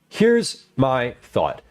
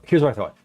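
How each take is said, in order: First: The words are clipped and detached from each other. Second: The words are connected and flow together normally.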